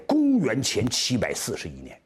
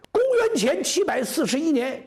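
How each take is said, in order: First: Said in the usual way. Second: Loud-ish, high storyteller's proclamation; high declamation. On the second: A narrator's reading. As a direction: ring the year out high and emphatic. Same year declaimed for emphasis.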